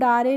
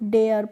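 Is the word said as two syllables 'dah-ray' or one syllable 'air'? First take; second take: dah-ray; air. First: It is said as two syllables, 'dah-ray'. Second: It is said as one syllable rhyming with 'air'. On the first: The speaker calls it wrong. "तो हम डारे नहीं पढ़ेंगे" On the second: The speaker calls it right. "इसको डेयर पढ़ेंगे"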